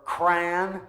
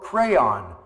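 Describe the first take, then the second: First: It is one syllable, like 'cran'. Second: It is two syllables, like 'cray-on'. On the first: "like cranberries without the berries" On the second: "which is considered correct by the company"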